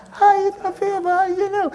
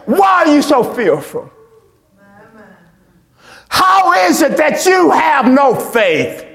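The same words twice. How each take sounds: First: Higher, softer throwaway question; wrong version, lightly mocked. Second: Firm, slow, emphatic question; the real rebuke. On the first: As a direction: toss it off half-heartedly, as he did not say it. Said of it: "He didn't say". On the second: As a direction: say it like Jesus really did, with weight. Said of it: "He said". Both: Shown as a demonstration.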